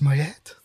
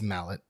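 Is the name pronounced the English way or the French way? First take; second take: French; English. First: The name is said with a French-style ending. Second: The name is said like the English word mallet. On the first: "Maybe it's pronounced in a French way" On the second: "No, it's mallet"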